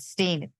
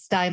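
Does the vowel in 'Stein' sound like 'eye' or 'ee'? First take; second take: ee; eye. First: The vowel sounds like 'ee', as in 'seen'. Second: The vowel sounds like 'eye', as in 'line'. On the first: The speaker calls it wrong. "not Stein" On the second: The speaker calls it right. "it's Stein like the glass"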